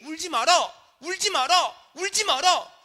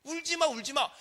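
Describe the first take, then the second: First: High, loud, emphatic command; forceful preached words of Jesus; powerful Jesus. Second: High-pitched imitated consolation, no force; hollow mock comforting; empty lip service. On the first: Retold or imitated. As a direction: proclaim each repetition with authority. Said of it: "주시는 말씀에는 능력이 있는 줄로". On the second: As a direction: say it as a mere courtesy. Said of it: "그냥 립서비스를 하는 거예요".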